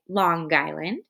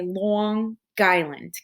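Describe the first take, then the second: First: It is said in a neutral accent. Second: It is said in a New York accent.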